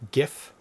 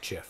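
First: The word begins with a hard G sound. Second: The word begins with a soft J sound. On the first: The speaker calls it right. "pronounce it with a hard G" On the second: The speaker calls it wrong. "not JIF"

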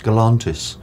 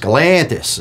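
First: The name is said with a non-American pronunciation. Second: The name is said with an American pronunciation. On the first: "If you're someone else, it's Galantis" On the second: "if you're an American, it's Galantis"

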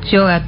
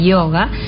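First: It is said with a Uruguayan pronunciation. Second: It is said with a standard pronunciation. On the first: The speaker calls it wrong. "Yo digo yoga porque los uruguayos decimos yoga" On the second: The speaker calls it right. "vamos a pronunciarlo correctamente"

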